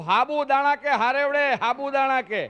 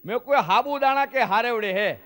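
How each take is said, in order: First: Loud and slow, hammering sabudana as if to someone who doesn't understand; over-explaining louder. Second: Said in the usual way. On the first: Retold or imitated. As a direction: spell out sabudana slowly and loudly. Repeats louder to a confused listener. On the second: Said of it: "હવે આને મારે સમજાવું કેવી રીતે?".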